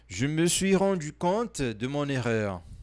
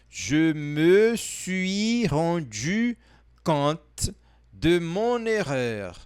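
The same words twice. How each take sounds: First: The sentence is spoken at a faster pace. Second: The sentence is spoken at a slower pace.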